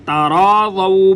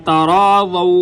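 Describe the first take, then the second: No difference in how they are said.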